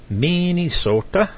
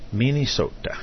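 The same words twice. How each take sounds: First: Put-on high, slow, sing-song Swedish accent on Minnesota; a stretched, lilting Swedish take on Minnesota. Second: Said in the usual way. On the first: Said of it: "uh, Swedish, uh, accent there". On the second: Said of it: "I try my best".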